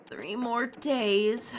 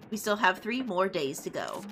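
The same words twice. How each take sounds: First: DAYS stretched into a rising question; slow, rising groan on DAYS; dismayed echo. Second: Said in the usual way. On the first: Acted. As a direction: drag out DAYS in disbelief. Other character echoes it in dismay.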